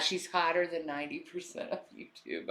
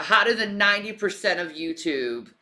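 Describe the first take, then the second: First: Said in the usual way. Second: Quoting a vain boast. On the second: Retold or imitated. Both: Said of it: "she said that".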